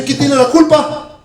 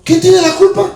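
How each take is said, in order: First: Higher, slow rhetorical question. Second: Much higher, louder repeat of ¿Quién tiene la culpa?; emphatic repeat. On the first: Preacher asks the congregation who is to blame, slow and rising. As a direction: ask it slowly, lifting the end. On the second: Preacher repeats the question to the congregation, pitched much higher. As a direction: fling it up high the second time. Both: Acted.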